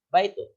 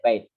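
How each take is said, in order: First: The word ends with a full 'un' ending. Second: The word ends abruptly on a silent final consonant.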